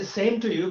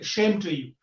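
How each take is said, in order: First: It starts with a plain s sound. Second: It starts with a sh sound, Bengali English.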